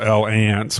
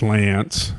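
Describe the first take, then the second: First: The name sounds like 'el-ants'. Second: The name sounds like 'lance'. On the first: This is the speaker's own pronunciation. "I pronounce it L Ants" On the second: This is the more common pronunciation. "mostly it's pronounced Lance"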